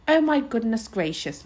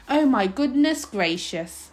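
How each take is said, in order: First: Mild moan of dismay; fretful little lament, lightly voiced; a touch of a moan. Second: Slow, drawn-out moan of dismay; lamenting, long-drawn words. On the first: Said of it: "moaned Homily". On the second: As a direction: moan it out slowly. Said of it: "moaned Homily again". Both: A narrator's reading.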